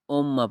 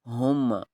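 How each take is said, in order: First: The word begins with a vowel, no h. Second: The word begins with an h sound. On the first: The speaker calls it wrong. "बहुत सारे दोस्त उम्मा पढ़ते हैं" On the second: The speaker calls it right. "दूसरी हुम्मा"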